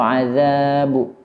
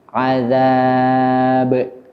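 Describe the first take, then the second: First: The final bounce leans toward a u vowel. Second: The final bounce leans toward an a vowel. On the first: The speaker calls it wrong. "atau azabu" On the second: The speaker calls it right. "tapi azab"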